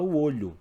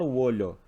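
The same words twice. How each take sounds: First: The unstressed o's sound like 'oo'. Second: The unstressed o's sound like 'oh'. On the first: The speaker calls it right. "a gente fala" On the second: The speaker calls it wrong. "Ninguém fala"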